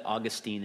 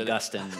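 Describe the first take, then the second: First: Put-on Augustine as AW-gus-teen, like the Florida city; city pronunciation. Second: Augustine as uh-GUS-tin, like the church father; church father pronunciation. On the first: Explaining the city in Florida, Augustine as AW-gus-teen. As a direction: stress the start of Augustine, long "teen" ending. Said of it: "I was always told that Augustine is a city". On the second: Contrasting church father with city, Augustine as uh-GUS-tin. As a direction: stress the GUS in Augustine, short "tin" ending. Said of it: "Augustine is a church father". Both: Shown as a demonstration.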